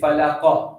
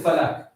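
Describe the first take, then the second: First: The final consonant is released with a bounce. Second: The final consonant stops flat without a bounce. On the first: The speaker calls it right. "So you say falaqa, you bounce it" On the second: The speaker calls it wrong. "you don't say falak"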